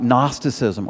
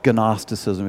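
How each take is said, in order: First: The initial G is silent. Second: The initial G is pronounced.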